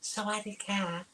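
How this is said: It is said in a high, feminine voice. The greeting comes from a woman, as expected.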